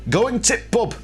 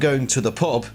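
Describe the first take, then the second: First: The word 'the' is reduced to a t sound. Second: The word 'the' is said in full. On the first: "up in the north, ... you say" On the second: "instead of saying"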